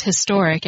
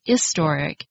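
First: Said in the usual way. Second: Historic with a silent H, starting on the vowel; British-style H-less historic; dropped H. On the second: Shown as a demonstration. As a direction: drop the H from historic, "istoric". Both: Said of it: "some British people pronounce historic as historic".

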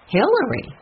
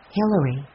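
First: HILLARY pitched high, then falling, in shock; astonished echo. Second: Said in the usual way. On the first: A narrator's reading. The others react to Jessie naming a suspect, astonished. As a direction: repeat the name in disbelief. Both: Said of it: "The others were so surprised".

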